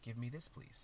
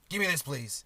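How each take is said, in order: First: The request sounds soft and polite. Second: The request sounds curt and demanding. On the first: The speaker is asking courteously. The speaker calls it right. "as polite as" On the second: The speaker is ordering rather than asking. The speaker calls it wrong. "doesn't sound as as polite"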